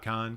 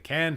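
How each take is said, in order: First: The vowel sounds like the one in 'con'. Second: The vowel sounds like the one in 'can'. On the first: The speaker calls it wrong. "I kind of just really like saying con" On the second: The speaker calls it right. "All right, I'll say can"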